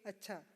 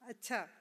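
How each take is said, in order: First: It sounds plain and agreeing. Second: It sounds encouraging, inviting more talk. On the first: The speaker agrees; it means okay. "or agreement, simply okay" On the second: The other person is urged to keep talking. "A prompting someone to talk"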